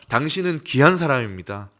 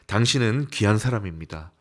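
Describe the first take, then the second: First: It is said in a louder voice. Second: It is said at a normal, softer volume.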